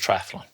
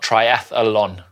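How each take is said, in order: First: No extra vowel is inserted before the final syllable. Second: An extra vowel is inserted before the final syllable. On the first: The speaker calls it right. "it is triathlon" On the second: The speaker calls it wrong. "There is no second A in the word triathlon. It is not triathlon"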